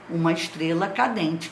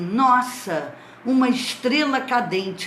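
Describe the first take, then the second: First: It is said as a plain statement. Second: It is said with excited admiration.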